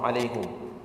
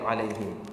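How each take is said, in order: First: The vowel after the h is u. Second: The vowel after the h is i. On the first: This is a variant reading. "dibaca dengan huruf dhammah" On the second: This is the majority reading. "bacaan jumhur"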